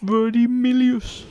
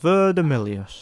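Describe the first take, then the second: First: It is said hesitantly, without confidence. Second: It is said boldly and confidently.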